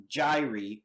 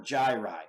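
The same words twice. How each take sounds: First: "gyri" with a final EE vowel; gyri as JAI-ree. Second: "gyri" with a final EYE vowel; gyri as JAI-rye. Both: Shown as a demonstration. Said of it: "However you wanna pronounce it".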